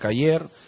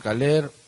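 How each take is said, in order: First: The middle consonant is a y sound, ending in r. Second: The middle consonant is an l sound, ending in r. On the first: This is how people in the highlands say it. "en la sierra pronuncian Cayer" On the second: This is how people on the coast say it. "en la costa Caler"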